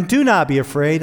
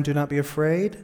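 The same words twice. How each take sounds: First: Said in the usual way. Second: "do not be afraid" dropped much softer, rising end; underlined, softer. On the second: Shown as a demonstration.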